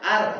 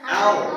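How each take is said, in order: First: The r is light, with a thin sound. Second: The r is heavy, with a thick sound. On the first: The speaker calls it wrong. "Jangan dibaca ar, ar salah" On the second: The speaker calls it right. "Tapi apa? Au"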